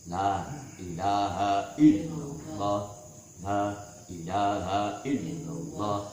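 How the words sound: A pause separates the two repetitions. The speaker calls it right. "seolah-olah ada jeda"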